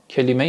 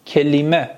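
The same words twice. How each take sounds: First: "کلمه" as kalame, with short a; Persian pronunciation. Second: "کلمه" as kelime, with e-i-e; Turkish pronunciation. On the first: Teacher translating for students, Persian "کلمه" as kalame. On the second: Teacher modelling the Turkish word for students, "کلمه" as kelime. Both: Shown as a demonstration. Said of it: "کلمه یعنی همون کلمه".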